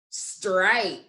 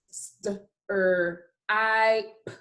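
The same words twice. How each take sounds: First: Said in the usual way. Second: STRIPE broken into st-, er, I, p; segmented phonics sounds, st... er... I... p; sounded out by phonemes. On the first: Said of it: "put all those sounds together". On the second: Shown as a demonstration. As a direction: say each sound separately, pausing between. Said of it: "I will say the sounds".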